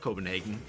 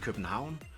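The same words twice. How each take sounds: First: The name is pronounced the usual English way. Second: The name is pronounced the local native way. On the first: This is how foreigners commonly say it. The speaker calls it wrong. "it's not Copenhagen" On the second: This is how natives say it. The speaker calls it right. "It's actually Copenhagen"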